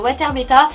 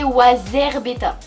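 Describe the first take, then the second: First: The middle consonant sounds like a t. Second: The middle consonant sounds like a z. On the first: This is how the name used to be said. The speaker calls it wrong. "moi je disais Water Beta" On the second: This is the proper way to say the name. The speaker calls it right. "c'est Wazar Beta"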